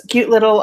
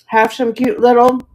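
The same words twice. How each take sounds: First: Said in the usual way. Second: Crunching ice while talking; ice in mouth. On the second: Real, not acted. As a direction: talk through a mouthful of ice. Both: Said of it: "sorry for crunching on ice".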